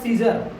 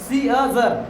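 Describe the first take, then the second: First: No extra vowel is sounded in the middle. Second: An extra vowel is sounded in the middle. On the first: The speaker calls it right. "C E A S E R सीजर" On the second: The speaker calls it wrong. "अगर ए का प्रयोग होता सी अजर होता"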